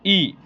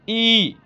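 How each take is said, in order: First: The vowel is said short and quick. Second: The vowel is drawn out long. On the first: "इसको थोड़ा-सा उच्चारण करके पढ़ेंगे" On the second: "इसको थोड़ा मतलब देर तक उच्चारण करेंगे"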